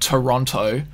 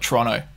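First: It is said the way tourists say it. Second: It is said the way locals say it. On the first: The speaker is a visitor to the city. "the tourists call it Toronto" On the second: The speaker lives in the city. "the locals just call it Toronto"

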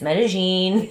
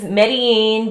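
First: The double L is said with a sh sound. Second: The double L is said without a sh sound. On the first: "if you say it with a Porteño accent, it's Medellin" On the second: "Medellin is Medellin"

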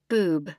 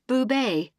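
First: The name is said as boob, one syllable. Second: The name is said as boo-BAY, two syllables. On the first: The speaker calls it wrong. "They read it like they see it" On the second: The speaker calls it right. "surname is pronounced Boubet"

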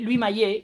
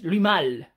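First: The surname ends with an 'ay' sound. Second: The surname ends with an 'al' sound. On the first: The speaker calls it wrong. "toda la vida diciendo curiosamente mal su nombre" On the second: The speaker calls it right. "en realidad es Louis Malle"

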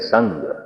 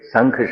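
First: The word ends with a g sound. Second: The word ends with an aspirated k sound. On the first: The speaker calls it right. "ਸੰਗ ਦਾ ਮਤਲਬ ਪੱਥਰ" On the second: The speaker calls it wrong. "ਸੰਖ ਸ਼ਬਦ ਨਹੀਂ ਹੈ"

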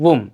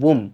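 Both takes have the same delivery.

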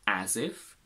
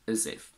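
First: The vowel in 'as' is full and strong. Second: The vowel in 'as' is a weak schwa. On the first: "I pronounce it as a in a strong form" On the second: "this a turns into a weak schwa"

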